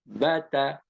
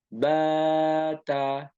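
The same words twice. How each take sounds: First: The vowels are kept short. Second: The vowels are drawn out long. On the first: The speaker calls it right. "Tapi pendek ya" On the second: The speaker calls it wrong. "Jangan dibaca bata"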